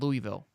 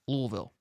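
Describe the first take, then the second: First: It is said with a general Southern pronunciation. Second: It is said with the local Louisville pronunciation. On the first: The speaker calls it wrong. "we say it wrong down here in the South. It's not Louisville" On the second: The speaker calls it right. "It's Louisville. That's that's actually how it's pronounced"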